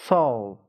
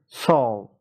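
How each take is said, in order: Both takes have the same delivery.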